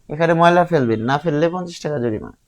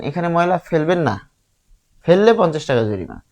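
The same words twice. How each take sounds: First: The pause comes before the word 'না'. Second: The pause comes after the word 'না'.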